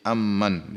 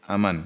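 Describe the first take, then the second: First: The m sound is held long and doubled. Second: The m sound is short and single. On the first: "dengan mentasydid huruf mim" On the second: "dengan tidak mentasydid mim"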